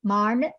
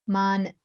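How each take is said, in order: First: "marn" with the tongue curled back on the n; retroflex ending. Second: Said in the usual way. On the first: Shown as a demonstration. Teacher contrasting a subtle sound for learners, retroflex "marn". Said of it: "retroflex sounds". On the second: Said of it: "very subtle thing to hear".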